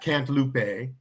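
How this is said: It is said with a put-on British pronunciation. The speaker calls it wrong. "another British person mispronouncing something"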